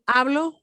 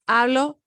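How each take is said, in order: Both takes have the same delivery.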